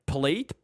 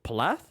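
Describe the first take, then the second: First: "palate" tried with a "-ate" ending; unsure pronunciation. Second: "Palate" tried with a short open final "a"; unsure pronunciation. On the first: Groping for the word, unsure "palate" ending like "late". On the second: Second try at the word, unsure "Palate" ending like "lat". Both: Real, not acted. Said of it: "We're gonna talk in Italian now".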